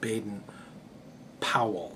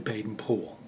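First: The name is given an Americanized pronunciation. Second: The name is given an English pronunciation. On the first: The speaker calls it wrong. "I've always used the Americanized pronunciation of Baden-Powell" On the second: The speaker calls it right. "That's actually how they pronounce it in England"

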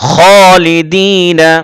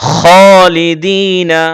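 No difference in how they are said.

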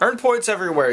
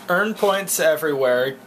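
First: It is read at normal speed. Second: It is read slowly.

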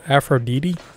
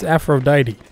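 First: The name is said the non-American way. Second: The name is said the American way. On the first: The speaker calls it wrong. "how did you pronounce that?" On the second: The speaker calls it right. "It's Aphrodite, alright? Learn the English language"

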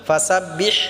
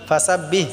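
First: The final h is harsh, pressed in the throat. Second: The final h is soft and breathy. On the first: The speaker calls it right. "গলায় চাপ দিয়ে হাটা উচ্চারণ করব" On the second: The speaker calls it wrong. "এরকমভাবে বললে হবে না"

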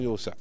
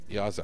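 First: The first vowel is an 'oo' sound. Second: The first vowel is a long 'aa' sound. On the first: The speaker calls it wrong. "مو يوسع" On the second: The speaker calls it right. "الواو غلبت إلى ألف"

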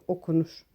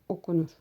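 The two takes are said the same way.

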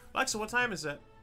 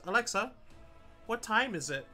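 First: The question is spoken quickly. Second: The question is spoken more slowly. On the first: The speaker calls it wrong. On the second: The speaker calls it right.

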